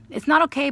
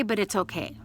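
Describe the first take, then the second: First: "It's not okay" burst out high and loud; emphatic. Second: Said in the usual way. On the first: Real, not acted. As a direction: blurt out "It's not okay" with force, then let it go.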